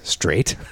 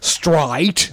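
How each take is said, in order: First: The word is said with an American accent. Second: The word is said with an Australian accent. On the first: This is how the character should sound. "when she means straight" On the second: The actor's real accent slipped out. "Nicole Kidman's Australian, I think she is, just like bust the fuck out"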